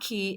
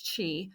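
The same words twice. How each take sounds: First: The word begins with a k sound. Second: The word begins with a ch sound. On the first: The speaker calls it wrong. "but it's not Qi" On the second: The speaker calls it right. "it's Qi"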